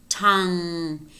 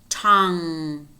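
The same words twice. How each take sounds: The two takes are said the same way.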